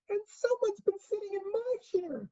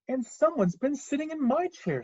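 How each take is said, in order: First: It is said in a wee, small voice. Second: It is said in a medium-sized voice.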